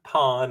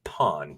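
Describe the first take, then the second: First: It is said in a Boston accent. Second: It is said in a standard accent. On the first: It means the adult-film word with the r dropped. The speaker calls it wrong. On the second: It means a pawn shop. The speaker calls it right.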